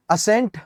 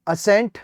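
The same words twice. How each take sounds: The two takes are said the same way.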